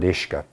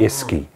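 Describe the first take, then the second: First: It is said the native Irish way. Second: It is said as spelled, the English way. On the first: The speaker calls it right. "the Irish word for water" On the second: The speaker calls it wrong. "try to pronounce it phonetically, you pronounce it Iski"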